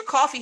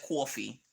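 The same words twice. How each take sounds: First: Said in the usual way. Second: "coffee" as "kwaw-fee", mimicking a New Yorker; New York accent. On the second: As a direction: copy uncle's rounded New York "coffee". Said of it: "I love the way Uncle Jesse says".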